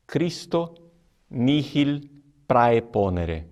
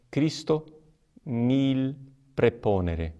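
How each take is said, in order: First: "Christo nihil praeponere" slow, with the h in "nihil" said as a hard kh, "nihil" like "nikhil"; reconstructed classical Latin. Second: "Christo nihil preponere" with a silent h in "nihil", said "nil", and "preponere" with a plain e; Roman church Latin. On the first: Priest showing students Cicero's Latin pronunciation, slow and deliberate. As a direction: spell out "Christo nihil praeponere" slowly, sounding the h in "nihil" and the ae in "praeponere". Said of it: "A pronúncia reconstituída, que seria aquela de Cícero".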